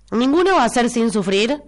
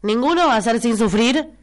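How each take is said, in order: Both takes have the same delivery.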